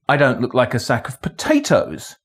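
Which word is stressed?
potatoes. The stress falls on the word potatoes. It might look like a sack of something else. "but I might look like a sack of something else"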